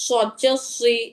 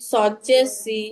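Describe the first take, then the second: First: সুই thick, with rounded lips; heavy emphatic S in সদ জে সুই. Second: সি as a light plain "see"; natural unrounded mouth on সি; unrounded, thin S. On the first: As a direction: round the mouth fully on সুই. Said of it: "মুখ গোল করে বলছি". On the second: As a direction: let the S of সি thin out like sin. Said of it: "স্বাভাবিকভাবে বলছি". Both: Shown as a demonstration.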